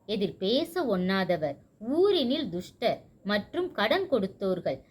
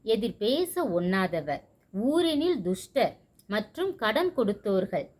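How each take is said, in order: Both takes have the same delivery.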